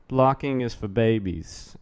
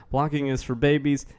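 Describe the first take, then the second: First: Put-on slow, lightly done Kennedy accent; a hint of Kennedy accent, drawn out. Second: Lightly done, clumsy presidential impression; a badly faked politician's voice; horrible Trump. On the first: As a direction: say it slowly, Kennedy-style accent. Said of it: "I said that in a Kennedy accent". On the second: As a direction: have a half-hearted go at mimicking him. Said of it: "That was a horrible Trump".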